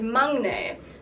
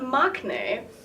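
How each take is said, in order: First: No k sound is heard mid-word. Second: A k sound is heard mid-word. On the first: The speaker calls it right. "it is maknae" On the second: The speaker calls it wrong. "it is not maknae"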